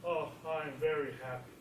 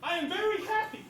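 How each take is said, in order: First: Low, soft, unhappy "happy"; low glum happy. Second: Happy. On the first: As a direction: say you're happy but sound down. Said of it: "Or said". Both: Shown as a demonstration.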